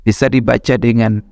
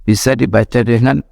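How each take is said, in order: Both takes have the same delivery.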